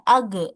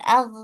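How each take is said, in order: First: The final consonant bounces with an abrupt release. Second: The final consonant flows on smoothly without release. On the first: The speaker calls it wrong. "dipantulkan ... itu salah" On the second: The speaker calls it right. "dialirkan ag"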